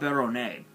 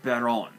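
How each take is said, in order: First: The word is said with three syllables. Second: The word is said with two syllables. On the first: The speaker calls it wrong. "not Baronnet" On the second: The speaker calls it right. "it's pronounced Baron"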